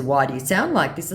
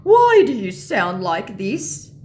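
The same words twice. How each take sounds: First: Said in the usual way. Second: Slow, loud, high scammer question; baffled mock scammer. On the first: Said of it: "And in response to". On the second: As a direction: drag out the scammer's complaint.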